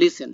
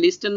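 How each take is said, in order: First: The t sound is left silent in the middle. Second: The t sound is pronounced in the middle. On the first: The speaker calls it right. "বলবো লিসেন" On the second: The speaker calls it wrong. "লিস্টেন না বলে"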